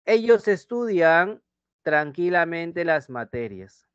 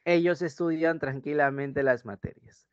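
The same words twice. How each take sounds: First: Ellos alto y lento, tranquilamente estirado; dictado enfático. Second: Said in the usual way. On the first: Shown as a demonstration. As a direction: dicta la frase despacio marcando ellos. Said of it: "Por ejemplo". (dictado lento y enfático) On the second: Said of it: "¿Sí?".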